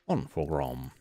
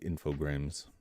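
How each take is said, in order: First: The name is said with a French pronunciation. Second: The name is said with an English pronunciation. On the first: The speaker calls it right. "Infogrames is pronounced Infogram because it's French" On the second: The speaker calls it wrong. "they just say Infogrames, which makes sense if they're all English speaking people"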